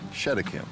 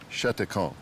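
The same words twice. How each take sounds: First: The name is said with an English pronunciation. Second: The name is said with a French pronunciation. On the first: "an English version of the name" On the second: "until the current Cheticamp"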